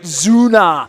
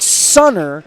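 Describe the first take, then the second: First: The word begins with a Z sound. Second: The word begins with an S sound. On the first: "but they pronounce it Zuna" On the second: "It's spelled like Sunner"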